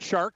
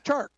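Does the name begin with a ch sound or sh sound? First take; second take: sh sound; ch sound. First: The name begins with a soft sh sound. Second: The name begins with a sharp ch sound. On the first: The speaker calls it wrong. "It's not Shark" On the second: The speaker calls it right. "It's Chark"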